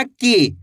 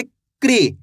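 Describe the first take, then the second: First: की said as "kee", without any r; plain k straight into long ee in की; wrong KI, no r. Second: क्री said as one syllable "kree", pitch falling; क्री with a clear r after the k; correct KRI, with r. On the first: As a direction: demonstrate की with the r dropped. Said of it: "ऐसे नहीं पढ़ना". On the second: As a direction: join k and r tightly in क्री. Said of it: "कैसे पढ़ेंगे?". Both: Shown as a demonstration.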